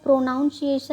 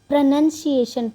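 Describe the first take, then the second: First: The second syllable sounds like 'nown'. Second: The second syllable sounds like 'nun'. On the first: The speaker calls it wrong. "इसको प्रोनाउंसिएशन नहीं पढ़ना है" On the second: The speaker calls it right. "इसको प्रोनंसिएशन पढ़ते हैं"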